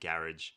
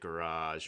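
First: It is said the British way. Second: It is said the Australian way.

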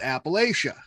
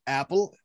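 First: It is said the northern way. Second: It is said the southern way. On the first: "all you guys up here up north with me, we call it" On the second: "down south, they call it something really odd"

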